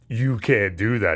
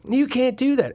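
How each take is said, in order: First: It is said in a big, booming voice. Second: It is said in a small, tiny voice.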